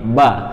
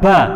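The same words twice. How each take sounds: First: The syllable is released gently and smoothly. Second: The syllable is released heavily and forcefully. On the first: The speaker calls it right. "tapi ba, halus" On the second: The speaker calls it wrong. "jangan ba, ba, kelihatan medok"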